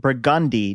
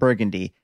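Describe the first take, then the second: First: It is pronounced the local New Orleans way. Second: It is pronounced the usual non-local way. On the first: This is how locals say the street name. The speaker calls it right. "we say the street name Burgundy" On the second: This is how outsiders say the name. The speaker calls it wrong. "not Burgundy"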